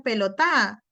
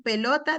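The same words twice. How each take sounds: First: «pelotá» con el golpe de voz en la «tá» final; acento en última sílaba. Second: Said in the usual way. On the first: Shown as a demonstration. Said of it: "niños que acentúan la última sílaba". («pelotá», aguda, acentuada al final) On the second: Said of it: "acentúan la última sílaba".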